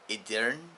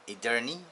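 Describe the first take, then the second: First: All three syllables are pronounced as spelled. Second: All three syllables are pronounced as spelled.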